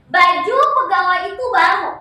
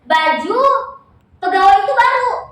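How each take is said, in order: First: Baju and pegawai run together with no break. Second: There is a break between baju and pegawai. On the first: The clothes are new. "nempel kan nempel" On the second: The employee is new. "Kalau di kalimat yang kedua dia nggak nyender"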